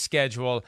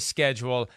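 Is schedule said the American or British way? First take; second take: American; American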